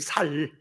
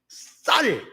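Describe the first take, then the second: First: The first consonant is plain and soft. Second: The first consonant is tense and strong. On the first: "경상도 분들은 쌀이란 말이 잘 안 나오지요" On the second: "전라도는 센 발음이 잘 나와"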